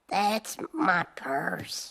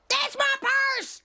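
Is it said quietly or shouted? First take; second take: quietly; shouted. First: It is said quietly and timidly. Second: It is shouted loudly.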